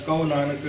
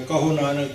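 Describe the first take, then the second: First: ਕਹੋ as ka-o, h dropped; wrong pronunciation. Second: ਕਹੋ as ka-ho with a clear h; two distinct syllables in ਕਹੋ; contrasted pronunciation. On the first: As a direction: slur ਕਹੋ into "kau". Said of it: "ਅੱਖਰ ਗਲਤ ਬੋਲਦੇ". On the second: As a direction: sound the h in ਕਹੋ. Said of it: "ਬੜਾ ਫਰਕ ਪੈਂਦਾ". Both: Shown as a demonstration.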